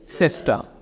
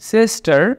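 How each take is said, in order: First: The final r is dropped, British style. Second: The final r is sounded.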